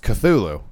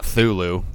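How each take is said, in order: First: The initial C sound is pronounced. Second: The initial C sound is left out. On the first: The speaker calls it right. "the C isn't silent" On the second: The speaker calls it wrong. "It's not Thulu"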